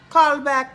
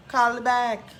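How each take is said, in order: First: Loud call. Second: Said in the usual way. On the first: Acted. Yelling at the phone.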